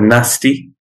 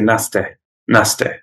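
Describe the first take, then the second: First: The word ends in an 'ee' sound. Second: The word ends in an 'ay' sound. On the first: "you have the word nasty" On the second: "In Yorkshire, they'll say naste"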